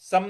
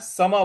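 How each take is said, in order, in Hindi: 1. शब्द बिना स्वर वाले म की ध्वनि पर खत्म होता है। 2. शब्द पूरी ma की ध्वनि पर खत्म होता है। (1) "सम नहीं बोलना है" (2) "सम बोलना है। स है पूरा और म भी पूरा है, कोई हलंत नहीं है।"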